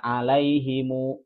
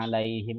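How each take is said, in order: First: The word ends with an added u vowel. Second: The word ends on the consonant m. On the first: This is another accepted reading. "Ada alaihimu" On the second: This is the common reading. "itu buat kita"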